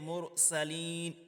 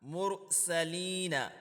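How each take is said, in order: First: The word ends on n without a vowel. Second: The word ends in a final vowel after n. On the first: The recitation stops at this word. "अगर आप वक्फ करेंगे तो इसको पढ़ेंगे मुरसलीन" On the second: The recitation continues without stopping. "नून ज़बर ना"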